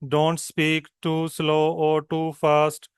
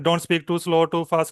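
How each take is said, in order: First: It is spoken at a very slow pace. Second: It is spoken at a very fast pace. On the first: "it's very slow" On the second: "it's टू fast"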